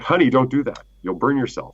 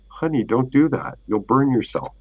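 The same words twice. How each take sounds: First: It is said lovingly but noticeably stressed. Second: It is said in a calm, loving voice.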